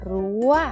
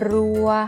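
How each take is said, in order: First: The tone is high and rising slightly. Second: The tone is mid and level. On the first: "ผันด้วยวรรณยุกต์โทหรือไม้โทจะออกเสียงตรี" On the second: "พื้นเสียงนั้นเป็นเสียงสามัญ"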